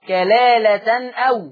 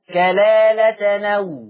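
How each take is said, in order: First: A glottal stop starts the word 'aw'. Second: The nunation links straight into 'aw'. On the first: "عندنا في الآية 12 كلالة أو" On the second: "نقلنا فتحة الهمزة إلى التنوين"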